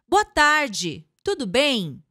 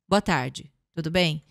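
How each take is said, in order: First: It is louder, with more energy throughout. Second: It is quiet, with phrase endings dropping low. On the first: The speaker calls it right. "Sobe um pouco o volume. Traz um pouco de energia" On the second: The speaker calls it wrong. "esses fins de frase em baixa"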